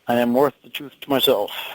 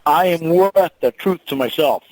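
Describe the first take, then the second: First: It is said flatly, without much confidence. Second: It is said loudly and with confidence.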